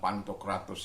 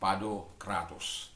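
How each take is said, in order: First: The middle consonants are pronounced as nt. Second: The middle consonants are pronounced as d. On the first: The speaker calls it wrong. "saya pernah bilang Pantokratos" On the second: The speaker calls it right. "dia tidak boleh dibaca uh, nt, tetapi dia dibaca d"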